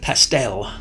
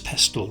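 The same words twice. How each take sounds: First: The word has a non-British pronunciation. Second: The word has the British pronunciation. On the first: Someone else said it should be this way. "Surely it should be pastel" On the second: This is how the speaker normally says it. "that's how we pronounce it in the U K"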